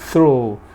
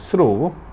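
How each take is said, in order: First: It is pronounced with an English pronunciation. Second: It is pronounced with a Korean pronunciation. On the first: "영어 발음하면" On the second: "한국 발음은"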